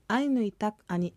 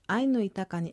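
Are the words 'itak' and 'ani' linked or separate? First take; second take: separate; linked. First: Itak and ani are said as separate words. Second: Itak and ani run together as itakani.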